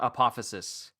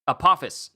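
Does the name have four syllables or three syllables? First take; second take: four; three. First: The name is said with four syllables. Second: The name is said with three syllables. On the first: The speaker calls it wrong. "not apophysis" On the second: The speaker calls it right.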